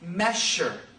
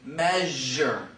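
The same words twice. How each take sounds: First: The middle consonant is a voiceless 'sh' sound. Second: The middle consonant is a voiced 'zh' sound. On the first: The speaker calls it wrong. "they use the voiceless and say measure" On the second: The speaker calls it right. "rather than saying measure"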